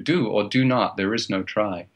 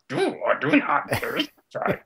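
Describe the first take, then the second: First: It is said in the speaker's normal voice. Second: It is said in a put-on character voice.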